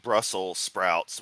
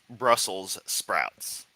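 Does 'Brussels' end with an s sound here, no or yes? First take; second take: no; yes. First: Brussels is said without its final s sound. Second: Brussels is said with its final s sound. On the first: The speaker calls it wrong. "he said Brussels sprouts" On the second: The speaker calls it right. "when it's Brussels sprouts, named after the city of Brussels"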